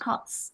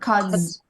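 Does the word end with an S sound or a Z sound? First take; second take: S sound; Z sound. First: The word ends with a hissing S sound. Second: The word ends with a buzzing Z sound. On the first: "ended by S or Z sound?" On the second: "ended by S or Z sound?"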